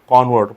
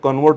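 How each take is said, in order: First: The stress is on the first syllable. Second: The stress is on the second syllable. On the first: It is used as a noun. "As a noun म्हणून वापरत असाल तर काय वापरू आपण" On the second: It is used as a verb. "As a verb म्हणून जर तुम्ही वापरत असाल कन्वर्ट, तर त्याचा उच्चार काय होतो"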